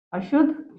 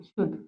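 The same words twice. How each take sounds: First: अशुद्ध with rising questioning tune; contrast word. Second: शुद्ध low, soft and falling; contrast word. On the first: Teacher marks the wrong spelling with a rising अशुद्ध. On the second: Teacher settles on the right spelling with a soft falling शुद्ध. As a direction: drop शुद्ध down softly as the answer. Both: Shown as a demonstration. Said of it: "अशुद्ध और शुद्ध वर्तनी".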